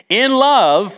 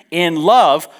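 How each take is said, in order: First: "In love" high and loud, "love" held and rising; LOVE opening the sentence. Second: "in love" raised and loud, falling on "love"; LOVE closing the sentence. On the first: Preacher restarting the unpunctuated verse on "In love", "love" held and rising. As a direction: lift and stretch "love", leading into more. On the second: Preacher ending the verse on "in love", falling close on "love". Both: Shown as a demonstration. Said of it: "He didn't have any punctuation".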